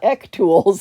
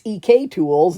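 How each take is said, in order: First: EK is said as one short word. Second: EK is said as two separate letters. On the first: The speaker calls it wrong. "not ek tools" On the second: The speaker calls it right. "it's E K tools"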